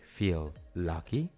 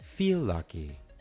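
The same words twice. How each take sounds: First: The two words are said with separate l sounds. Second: The words join into one longer l sound. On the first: The speaker calls it wrong. "separar los sonidos y decir feel lucky" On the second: The speaker calls it right. "simplemente los unimos y lo hicimos un poco más largo"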